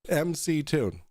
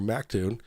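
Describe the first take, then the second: First: The name begins with the letters em and see. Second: The name begins with the syllable mac. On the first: The speaker treats this as the person's real name. The speaker calls it right. "his actual name, which is M C Tune" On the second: The speaker mocks this as a flat earther's version. The speaker calls it wrong. "If they call him Mictune or Mactune"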